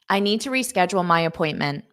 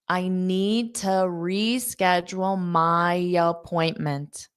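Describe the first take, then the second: First: The sentence is spoken at a fast pace. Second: The sentence is spoken at a slow pace. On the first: "Now, I'll say it fast" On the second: "I'll say it one more time slow"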